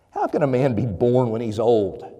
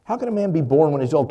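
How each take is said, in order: First: Dry, mocking question, first go; a skeptic's dry sarcasm; sarcastic. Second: Quick, louder mocking repeat; heavy sarcasm. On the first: Teacher Nicodemus answering Jesus, with a touch of sarcasm. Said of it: "drips with sarcasm". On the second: Nicodemus scoffing back at Jesus, louder and faster, sarcastic. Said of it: "do you hear kind of the sarcasm".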